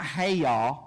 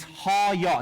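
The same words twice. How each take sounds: First: "hey ya" said like the English greeting, ey vowel, wrong on purpose; wrong pronunciation. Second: "ha-ya" with open ah vowels, HA-ya, stress on the first syllable; correct Hebrew pronunciation. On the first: Teacher showing the class the wrong way to say it, "hey ya". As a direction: mispronounce it as "hey ya" to show the error. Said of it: "Not hey ya". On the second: Teacher giving the class the right Hebrew word, "ha-ya" with open ah sounds. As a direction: say "ha-ya" carefully, ah then yah. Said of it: "It's how you pronounce it". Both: Shown as a demonstration.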